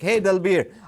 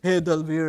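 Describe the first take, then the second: First: It is said excitedly with high energy. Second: It is said flatly with low energy. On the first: The speaker calls it right. "you need to have a high tone, excitement" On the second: The speaker calls it wrong. "Not like that"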